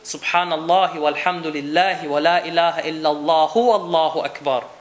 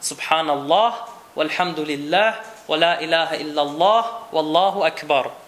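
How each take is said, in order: First: The phrases are run together without pauses. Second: Each phrase is separated by a pause. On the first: "wenn es jemand eilig hat und verbinden möchte" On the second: "man kann sagen"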